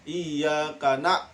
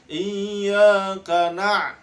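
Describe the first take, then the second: First: "iyyaka na-" with the ain missing; wrong reading. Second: "Iyyaka na-" slow with a pressed ain; correct reading. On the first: Teacher shows pupils the mistaken na. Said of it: "nah, salah ya". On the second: Teacher models the pressed ain for pupils. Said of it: "di agak tekan ya". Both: Shown as a demonstration.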